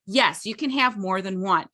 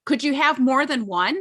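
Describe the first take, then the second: First: "have" stressed, falling at the end as a firm answer; answering statement. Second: "have" stressed, rising at the end as a question; asking question. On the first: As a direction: settle it down on "one". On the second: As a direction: ask it with a lift on "one". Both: Shown as a demonstration.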